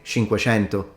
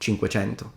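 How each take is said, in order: First: The c between vowels sounds like sh. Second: The c between vowels sounds like ch. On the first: This is the speaker's native Palermo pronunciation. "I do say cinquecento ... when I'm using my own native pronunciation" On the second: This is the standard pronunciation. "rather than"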